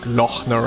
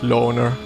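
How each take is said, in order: First: The name is said with an audible h sound. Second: The name is said with no h sound. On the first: "try to pronounce the H with like Lochner" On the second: "without the Ö. Just loner"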